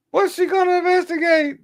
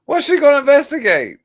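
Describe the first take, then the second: First: Very high, mocking falsetto repeat; falsetto scoff. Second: High, incredulous scoff; scoffing question. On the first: Streamer mocking Maxine Waters in falsetto. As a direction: ask it again in falsetto. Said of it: "repeat scoff higher". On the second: Streamer scoffing at Maxine Waters. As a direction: scoff at her claim. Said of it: "scoffing at the clip". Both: Real, not acted.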